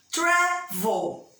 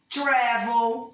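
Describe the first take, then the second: First: "Travel" split TRA... vel, high on TRA; stress on first syllable. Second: Said in the usual way. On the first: Shown as a demonstration. Teacher showing why travel does not double, stress on first syllable. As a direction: sound out "Travel" in two beats, first one strong and high. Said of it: "Não é a última sílaba forte". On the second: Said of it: "por exemplo".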